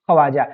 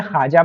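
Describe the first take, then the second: First: ख्वाजा with the w sounded, kha-waa-ja; ख्वाजा with an audible w; as written. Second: ख्वाजा said khaa-ja, w dropped; ख्वाजा with no w sound; silent w. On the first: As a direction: read ख्वाजा as spelt, "khawaaja". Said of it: "यहाँ पे लिखा हुआ है". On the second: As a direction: read ख्वाजा as "khaaja". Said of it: "क्या पढ़ते हैं". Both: Shown as a demonstration.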